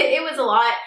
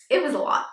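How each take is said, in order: First: Said in the usual way. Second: Said through laughter about it being a lot; laughing. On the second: Real, not acted. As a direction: laugh it out, amused. Laughing about store troubles.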